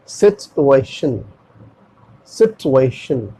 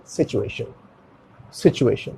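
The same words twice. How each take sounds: First: सिचुएशन as "sit-u-ay-shun", t and no ch; correct pronunciation. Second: सिचुएशन with a "chu", low and soft; common Indian pronunciation. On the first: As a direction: slowly split सिचुएशन with a clean t. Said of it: "इसका correct pronunciation होगा". (सिचुएशन को सिट-उ-ए-शन, धीरे से) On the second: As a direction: say सिचुएशन as "si-chu-ay-shun", offhand. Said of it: "क्या बोलते हैं आमतौर पर इंडिया में". (सिचुएशन में च की आवाज़) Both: Shown as a demonstration.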